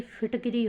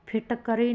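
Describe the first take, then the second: First: फिटकरी as "phit-ki-ree"; corrected form. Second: फिटकरी as "phit-ka-ree"; wrong form. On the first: Teacher giving students the correction, फिटकरी with "kiree". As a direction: put a short i after the k in फिटकरी. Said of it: "फिटकरी होगा". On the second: Teacher showing students the error, फिटकरी with "karee". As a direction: put an a after the k in फिटकरी. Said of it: "फिटकरी नहीं". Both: Shown as a demonstration.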